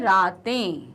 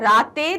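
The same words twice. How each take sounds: First: The final vowel is nasal. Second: The final vowel is plain, not nasal. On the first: The speaker calls it right. "हम क्या बोलते हैं?" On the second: The speaker calls it wrong. "रातें नहीं आता है"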